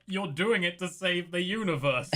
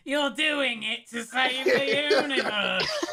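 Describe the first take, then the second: First: Mild mock yell, pitched up; half-held-back imagined yell. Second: Exaggerated high, slow mock yell; hammed-up caricature, loud and drawn out; Leon's mental impersonation. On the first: Player yells in his head at Leon, mild mock yell. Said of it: "in my head, I'm yelling". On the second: Leon imagines a teammate yelling at him, exaggerated high impersonation. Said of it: "Leon's impersonate mental picture of me, so let me redo my line".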